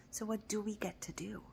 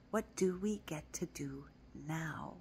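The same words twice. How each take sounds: First: Whisper. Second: Said in the usual way. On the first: Shown as a demonstration. Repeats the question twice.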